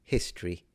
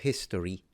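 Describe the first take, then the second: No difference in how they are said.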